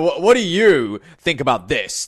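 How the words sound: The tone sounds angry and harsh. The speaker seems annoyed with the listener. The speaker calls it wrong. "The tone sounds quite angry, right?"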